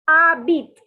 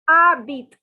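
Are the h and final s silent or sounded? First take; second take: silent; silent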